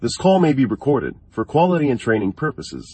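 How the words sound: It is spoken in an American accent.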